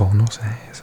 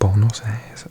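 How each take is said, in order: First: The name is pronounced in another distorted way. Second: The name is pronounced in another distorted way.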